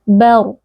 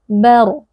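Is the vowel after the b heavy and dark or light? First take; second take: light; light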